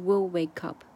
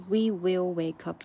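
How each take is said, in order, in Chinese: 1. We 和 will 缩读成一个音节。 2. We 和 will 分开读成两个词。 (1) "它直接把we will 连读成will wake up" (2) "它不是we will wake up"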